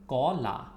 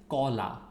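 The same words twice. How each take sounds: The two takes are said the same way.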